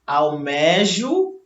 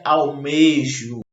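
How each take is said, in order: First: Almejo said slowly with open é; the incorrect "Almejo", stretched open e; open E demo. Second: Almejo said with closed ê; the correct "almejo", tight closed e; closed E demo. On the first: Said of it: "E não com o E aberto". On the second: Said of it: "devem ser pronunciadas com o E fechado". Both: Shown as a demonstration.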